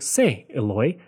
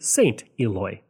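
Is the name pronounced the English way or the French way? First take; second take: French; English. First: The name is said with French pronunciation. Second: The name is said with English pronunciation. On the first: The speaker calls it right. "I want to make sure I say it properly" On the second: The speaker calls it wrong. "not to revert to"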